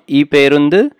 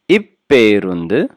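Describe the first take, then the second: First: The p sound is single and short. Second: The p sound is doubled and held long. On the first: The speaker calls it wrong. "So not iperundu" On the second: The speaker calls it right. "must be doubled"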